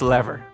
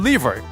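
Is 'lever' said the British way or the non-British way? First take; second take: non-British; British. First: The word is said in a non-British way. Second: The word is said in a British way. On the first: The speaker calls it right. "The right way is lever" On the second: The speaker calls it wrong. "saying it wrong. Then I start saying lever"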